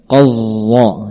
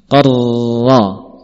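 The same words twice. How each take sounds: First: The r sound has no trill at all. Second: The r sound has one short tongue trill. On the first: The speaker calls it wrong. "yang namanya menghilangkan sifat ra" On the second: The speaker calls it right. "cukup sekali kita menggetarkan ujung lidah"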